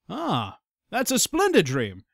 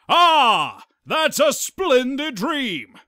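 First: It is said in a plain, ordinary voice. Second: It is said in a booming announcer voice.

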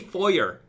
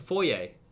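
First: It is said with the American pronunciation. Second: It is said with the French-like pronunciation. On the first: The speaker calls it wrong. "when Americans say foyer, they call it foyer" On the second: The speaker calls it right. "And I'm like, it's a foyer"

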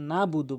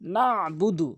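First: No throaty consonant is heard in the middle. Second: A throaty ain is heard in the middle. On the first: The speaker calls it wrong. "আইনটি বাদ দিয়ে ফেলে" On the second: The speaker calls it right. "না বুদু বলতে হবে"

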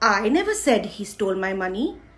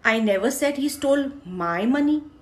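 First: The stress falls on the word I. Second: The stress falls on the word my. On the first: Someone else said it. "मैंने नहीं बोला, किसी और ने बोला होगा" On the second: Someone else's money was stolen. "मैंने ये नहीं कहा उसने मेरे पैसे चुराए, किसी और के चुराए हैं"

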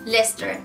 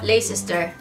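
First: The word is pronounced in a shortened form. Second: The word is pronounced as it is written. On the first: "Pero ellos que dicen Leicester" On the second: "si a mí me dicen en leerla, digo Leicester"

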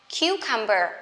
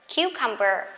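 No difference in how they are said.

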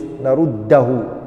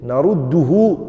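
First: The vowel after the d is a. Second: The vowel after the d is u. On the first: This is a weak form. The speaker calls it wrong. "a fatha on the dal, but it's weak" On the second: This is the most eloquent form. The speaker calls it right. "أَفْصَحُ اللُّغَةِ"

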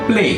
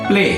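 Both takes have the same delivery.

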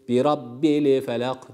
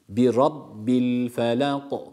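First: An extra i vowel follows the l. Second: Rabbil ends cleanly on the l consonant. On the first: The speaker calls it wrong. "yani şöyle değil" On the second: The speaker calls it right. "hareke vermekten kaçınıyoruz"

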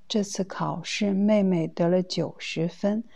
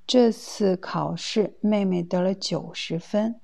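No difference in how they are said.

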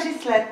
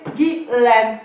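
First: The name has a non-Parisian pronunciation. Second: The name has a Parisian pronunciation. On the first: The speaker calls it wrong. "pas Ghislaine" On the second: The speaker calls it right. "Mon prénom, c'est Ghislaine ... ici, à Paris, on prononce"

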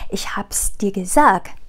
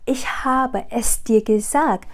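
First: The words habe es are contracted to hab's. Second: The words habe es are said in full. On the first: The speaker calls it right. "Chúng ta sẽ nói là" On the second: The speaker calls it wrong. "Chúng ta sẽ không nói là"

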